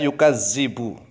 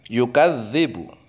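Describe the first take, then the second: First: The middle consonant is a plain z sound. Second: The middle consonant is a voiced th sound. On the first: The speaker calls it wrong. "akan terbaca yukadzibu pakai zai, salah" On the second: The speaker calls it right. "Harus pakai dzal"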